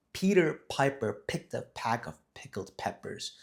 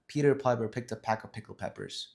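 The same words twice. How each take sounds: First: Slow, deliberate "Peter Piper picked a pack of pickled peppers", every word separated; each word emphasized. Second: Said in the usual way. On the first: Shown as a demonstration. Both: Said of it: "You emphasize each word".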